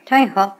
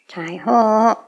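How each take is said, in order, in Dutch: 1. De laatste klinker is kort. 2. De laatste klinker is lang uitgerekt. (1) "bigger than just taiho" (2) "It's taiho"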